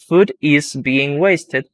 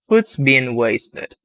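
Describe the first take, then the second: First: The verb 'is' is said as a full word. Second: The verb 'is' is reduced to an s sound. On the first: "instead of saying food is being wasted" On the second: "we say food's being wasted"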